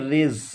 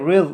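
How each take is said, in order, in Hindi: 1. ज़ की आवाज़ में सीटी जैसी हिस है। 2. ज़ की आवाज़ में सीटी जैसी हिस नहीं है। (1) "सीटी जैसी आवाज़ निकले" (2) "नहीं पढ़ना, ये क्या है, गलत है"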